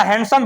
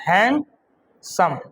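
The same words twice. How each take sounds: First: Said in the usual way. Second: handsome very slowly as "hand ... sam", long pause between; broken into syllables. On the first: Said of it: "भागों में तोड़ के बोले". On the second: Shown as a demonstration. Teacher showing a multi-syllable word, handsome broken in two. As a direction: split handsome in two, second part lower. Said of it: "दो या दो से अधिक भागों में तोड़ के बोले".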